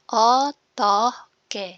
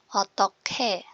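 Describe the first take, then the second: First: The middle consonant is a plain g sound. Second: The middle consonant is an aspirated k sound.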